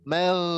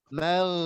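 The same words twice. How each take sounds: Both takes have the same delivery.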